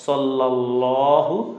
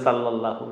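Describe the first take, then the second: First: The first consonant is a plain s sound. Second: The first consonant is not a plain s sound. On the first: The speaker calls it right. "স সজ্জবর স" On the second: The speaker calls it wrong. "অনেকে বলে সাল্লাল্লাহু, না"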